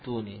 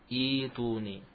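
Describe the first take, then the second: First: The hamzah is kept as a glottal stop. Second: The hamzah becomes a long i vowel. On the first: The word is joined to the word before. "Tidak mengalami ibdal" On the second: The reading starts at this word. "hamzahnya diganti menjadi ya"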